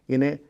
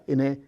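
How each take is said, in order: Both takes have the same delivery.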